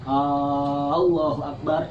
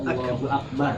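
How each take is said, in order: First: The first vowel of Allah is lengthened. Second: The first vowel of Allah is short. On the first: The speaker calls it wrong. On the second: The speaker calls it right.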